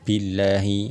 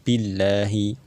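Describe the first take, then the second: No difference in how they are said.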